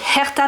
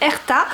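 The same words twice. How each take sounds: First: The starting H is clearly pronounced. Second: The starting H is silent.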